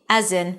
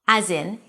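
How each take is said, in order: Both takes have the same delivery.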